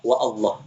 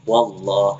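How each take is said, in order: First: A glottal catch separates wa from Allah. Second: Wa runs straight into Allah without a catch. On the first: The speaker calls it wrong. "Enggak boleh kita baca wa Allah" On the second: The speaker calls it right. "pasti wallah"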